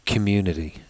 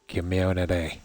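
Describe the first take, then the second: First: "community" said plainly in the speaker's own Midlands accent; plain own-accent "community", kuh-MYOO-ni-tee. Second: "community" imitated the Northern Irish way, kim-YOW-na-tay. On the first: Shown as a demonstration. Streamer giving his own version of "community". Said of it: "let's say I would say". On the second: Streamer mimicking the Northern Irish way of saying it. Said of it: "and they would say".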